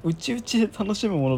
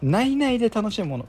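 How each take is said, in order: First: 内々 read "uchi-uchi"; reading UCHIUCHI. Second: 内々 read "nai-nai"; reading NAINAI. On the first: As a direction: say 内々 as "uchi-uchi", not "nai-nai". (内々を「うちうち」と読む) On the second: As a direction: say 内々 as "nai-nai", not "uchi-uchi". (内々を「ないない」と読む) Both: Real, not acted. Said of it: "なんだろう".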